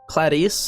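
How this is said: The name is said with Japanese-style pronunciation. "more along the lines of how the Japanese would pronounce it"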